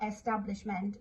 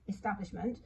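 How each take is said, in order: First: "establishment" with a full, clear E as in "egg" at the start; spelling pronunciation. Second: Said in the usual way. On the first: Shown as a demonstration. Teacher showing the child's error, spelling pronunciation. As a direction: sound out "establishment" as written, stressing its first vowel. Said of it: "It's not establishment". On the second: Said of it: "it's establishment".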